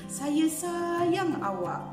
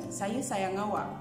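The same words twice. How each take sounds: First: It is said with expressive, lively intonation. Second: It is said plainly with flat intonation. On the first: The intonation adds feeling to the message. "Kan intonasi kan?" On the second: Only the words carry the message. "Dia menyatakan"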